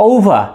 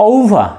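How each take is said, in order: The two takes are said the same way.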